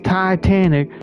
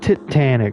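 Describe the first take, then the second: First: It is said in an exaggerated Southern accent. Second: It is said in a non-American accent. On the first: "that over-the-top Southern accent" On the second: "you un-Americans probably call it Titanic"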